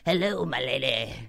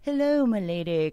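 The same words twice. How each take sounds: First: The greeting sounds rough and not very nice. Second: The greeting sounds gentle and nice.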